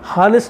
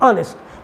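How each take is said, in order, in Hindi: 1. शब्द एच की ध्वनि से शुरू होता है। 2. शब्द स्वर की ध्वनि से शुरू होता है। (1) "हानेस्ट नहीं पढ़ेंगे" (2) "एच साइलेंट है"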